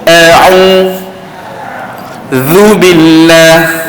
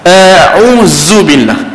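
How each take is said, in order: First: The consonant is a 'dh' with tongue between teeth. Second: The consonant is a hissing 'z' sound. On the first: The speaker calls it right. "gigit lidah pada huruf zal" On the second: The speaker calls it wrong. "dia tukar huruf zal yang gigit lidah itu kepada huruf desir pada zai. Maka itu adalah salah"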